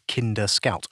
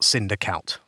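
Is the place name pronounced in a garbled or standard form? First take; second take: standard; garbled. First: The place name is pronounced in its standard form. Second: The place name is pronounced in a garbled form. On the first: The speaker calls it right. "Oh, I said it" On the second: The speaker calls it wrong. "which is what I said when I was saying it before"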